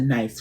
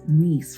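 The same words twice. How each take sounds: First: The word sounds like 'nice', rhyming with 'rice'. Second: The word sounds like 'niece', with a long ee. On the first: The speaker calls it wrong. "as opposed to nice" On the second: The speaker calls it right. "nice is really pronounced Nice"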